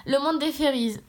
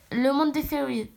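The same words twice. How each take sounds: First: Said in the usual way. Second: "fairies" slipping into an English accent. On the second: Real, not acted. Reader stumbles on the world of "fairies", English accent slipping in. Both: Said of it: "pourquoi je parle en accent anglais?".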